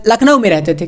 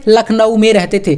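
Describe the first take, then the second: First: Said in the usual way. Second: Lucknow में stressed, falling at the end; teacher stressing the answer to his own question; emphatic repeat. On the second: Shown as a demonstration. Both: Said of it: "कहाँ पर रहते थे?".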